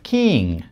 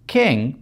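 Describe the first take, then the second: First: The vowel is raised, tense and slightly longer. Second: The vowel is standard and not raised. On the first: "king превращается в king" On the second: "если мы в стандарте говорим"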